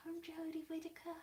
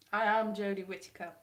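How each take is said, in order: First: High, soft, Australian-tinged attempt; failed impression drifting into Australian; accidental Australian accent. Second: Lightly played, louder introduction; mock Jodie Whittaker. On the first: Vlogger attempting the actress's accent, landing on soft Australian. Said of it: "That's more Australian". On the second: Vlogger in a wig claiming to be the actress, mock announcement. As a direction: announce yourself firmly, lightly in character. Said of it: "I could be Jodie Whittaker".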